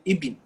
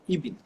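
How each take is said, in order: First: The word is said to sound like 'ibn'. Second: The same.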